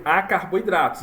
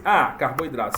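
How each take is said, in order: First: "a carboidratos" run together with no break after "a"; no pause. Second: "A, carboidrato" with a break after the letter A; pause after A. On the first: Retold or imitated. Teacher quoting the machine's error, letter and word run together. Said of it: "não deu a pausa no A". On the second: Shown as a demonstration. Teacher showing how the machine should read it, pause after A. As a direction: say "A" on its own, then "carboidrato". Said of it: "Será que ele dá a pausa".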